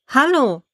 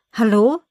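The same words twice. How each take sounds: First: "Hallo" pitched high, then falling; insistent repeated phone "Hallo" with a falling tune; insistent hello. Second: "Hallo" with a rising, questioning end; tentative phone "Hallo", pitch lifting at the end; questioning hello. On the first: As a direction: call "Hallo" higher, dropping at the end. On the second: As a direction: ask "Hallo" upward, checking if anyone's there. Repeated calling into a phone. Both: A narrator's reading.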